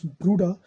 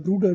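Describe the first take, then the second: First: The ending is said as an open 'ah'. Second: The ending is said as a full 'er'. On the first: The speaker calls it right. "the er sounds as ah" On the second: The speaker calls it wrong. "whenever the er comes at the end of the word"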